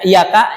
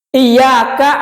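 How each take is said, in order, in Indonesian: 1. Bunyi y dibaca pendek, tidak ditasydid. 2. Bunyi y dibaca panjang, ditasydid. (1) "kalau tidak ada tasdidnya dibaca iyaka jadi kepada matahari" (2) "Iyaka artinya hanya kepadamu"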